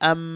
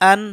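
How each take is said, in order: First: The ending is pronounced with an m sound. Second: The ending is pronounced with an n sound. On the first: The sound changes because the next letter is ba. "কিন্তু হচ্ছে আম, কারণ বা আসছে" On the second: This is the usual reading of the double vowel mark. "সাধারণত হামজা 2 জবর আন হওয়ার কথা"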